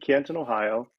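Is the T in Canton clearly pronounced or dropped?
clear. The T in Canton is clearly pronounced.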